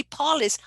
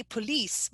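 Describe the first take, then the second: First: "polis" as PAH-lis; first-syllable stress. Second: Said in the usual way. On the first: Shown as a demonstration. Student's hypercorrected logic, front stress. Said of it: "Should be polis on the first". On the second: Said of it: "but you don't say".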